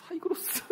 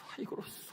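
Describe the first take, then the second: First: 하이그로스 squeaked very high through a laugh; a pastor laughing as he begs God for a 하이그로스 chair; squeaky laughing plea. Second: A pastor whispering 하이그로스 to God like a wish; whispered plea. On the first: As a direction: pitch 하이그로스 way up as you crack up. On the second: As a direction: whisper the word 하이그로스 as a secret prayer. Praying for a chair. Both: Retold or imitated.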